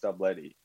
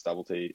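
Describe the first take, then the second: First: Stublety said as "stub-LETTY"; name as Stub-letty. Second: Stubblety said as "STUBBLE-tee"; name as Stubble-tee. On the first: Swimmer explaining his surname to host, Stublety as stub-letty. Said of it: "it is pronounced Stublety". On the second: Swimmer quoting how everyone says his surname, Stubblety as stubble-tee. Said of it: "everyone pronounces Stubblety at the Olympics". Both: Shown as a demonstration.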